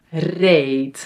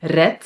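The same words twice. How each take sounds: First: "reed" as a long "rayt"; long Dutch ee in "reed", final t; long vowel. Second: "Red" with short e, ending in t; "Red" with quick "eh" and final t; short vowel. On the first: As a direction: draw out the ee in "reed" like "ay", ending in t. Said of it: "for a long sound". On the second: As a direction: say "Red" as a brief "ret". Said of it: "we pronounce it as a T". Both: Shown as a demonstration.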